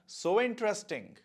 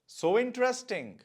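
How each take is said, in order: No difference in how they are said.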